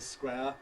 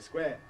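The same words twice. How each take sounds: First: The vowel glides between two vowel qualities. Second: The vowel stays as one steady sound. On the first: "they don't say square" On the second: "they indeed say square"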